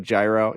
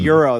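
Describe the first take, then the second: First: Gyro is said with an Americanized pronunciation. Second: Gyro is said with a Greek-style pronunciation.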